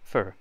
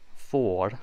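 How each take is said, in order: First: The word has a short, reduced 'ur' vowel. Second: The word has a full, long 'or' vowel. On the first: The speaker calls it right. "say it more like the word fur, but say it fast" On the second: The speaker calls it wrong. "Don't say oh, for"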